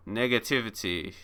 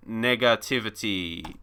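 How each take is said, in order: First: Negativity with the back half leaned on; Negativity, quietly punching the second half; stress on second part. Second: Said in the usual way. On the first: Shown as a demonstration. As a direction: push the -tivity of negativity. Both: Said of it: "important to say the ... second part of that word".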